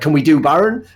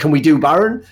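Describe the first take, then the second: First: It sounds like an unsure, tentative question. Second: It sounds like an unsure, tentative question.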